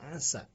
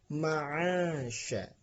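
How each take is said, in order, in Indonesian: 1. Konsonan sebelum vokal terakhir adalah 's'. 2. Konsonan sebelum vokal terakhir adalah 'sh'.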